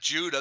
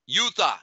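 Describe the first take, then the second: First: The name begins with a J sound. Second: The name begins with a Y sound. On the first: The speaker calls it wrong. "It's not Judah. There's no J" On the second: The speaker calls it right. "The word youth is there"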